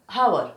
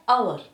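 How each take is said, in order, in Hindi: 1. इसकी शुरुआत में साफ़ h की आवाज़ होती है। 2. यह सीधे स्वर की आवाज़ से शुरू होता है।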